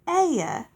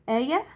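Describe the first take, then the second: First: The voice falls at the end, like a statement. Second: The voice rises at the end, like a question. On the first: It is a plain answer. The speaker calls it right. "It's not" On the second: It sounds like a question. The speaker calls it wrong. "I can't not say it as a question"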